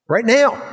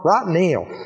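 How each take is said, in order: First: It is said in a plain, neutral accent. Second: It is said in a drawn-out southern accent.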